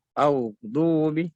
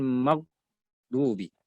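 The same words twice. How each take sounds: First: "Aghdubi" with gh held and flowing into du; flowing ghain. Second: "maghdubi" stopped at "mag", gap, then "dubi"; cut-off ghain. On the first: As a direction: slowly run gh into du in "Aghdubi". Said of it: "Jangan dibaca terputus". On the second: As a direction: chop "maghdubi" after the g. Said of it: "Bukan maghdubi". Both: Shown as a demonstration.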